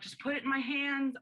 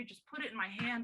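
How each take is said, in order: First: Raised, higher, pushing the nurses to listen; urgent demand, pitched up; insistent plea. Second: Said in the usual way. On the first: Retold or imitated. Pleading with triage nurses.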